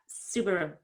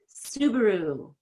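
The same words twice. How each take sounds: First: The final vowel is cut short. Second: The final vowel is a full, long ooh. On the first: The speaker calls it wrong. "it's not Subaru" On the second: The speaker calls it right. "make a real ooh"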